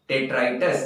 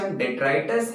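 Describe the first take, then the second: First: Detritus set apart on its own, with a lifting end; pronunciation model. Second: Said in the usual way. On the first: Shown as a demonstration. Teacher models detritus for students, carefully. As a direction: say detritus slowly and clearly. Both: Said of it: "इसका pronunciation detritus है".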